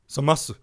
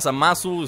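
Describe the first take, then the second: First: The final u is nearly silent. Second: The final u is clearly pronounced. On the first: "así lo pronuncian los japoneses, ¿no? Zamas. La U muy apenas si la dicen" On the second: "está bien que se pronuncia Zamasu"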